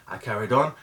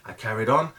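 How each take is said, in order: Both takes have the same delivery.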